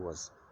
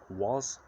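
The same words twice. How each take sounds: First: The vowel is reduced to a weak schwa. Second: The vowel is a full, clear vowel. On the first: "when you hear it spoken quickly, it changes ... to was. Uh" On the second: "it changes from was"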